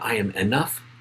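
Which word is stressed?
enough. The stress is on enough.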